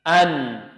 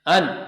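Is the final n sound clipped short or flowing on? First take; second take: flowing; clipped. First: The n sound flows on with a slight hum. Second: The n sound is pressed and cut short. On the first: The speaker calls it right. "tapi an, am, ta, an, kan ada aliran sedikit" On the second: The speaker calls it wrong. "Jangan an"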